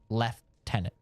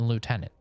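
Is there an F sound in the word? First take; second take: yes; no. First: The word has an F sound in it. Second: The word has no F sound. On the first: The speaker calls it wrong. "So it's not lieutenant" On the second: The speaker calls it right. "There's no F in lieutenant"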